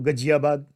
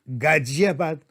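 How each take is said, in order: First: The first vowel is short, eastern regional pronunciation. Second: The first vowel is long, standard pronunciation. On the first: The speaker calls it wrong. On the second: The speaker calls it right.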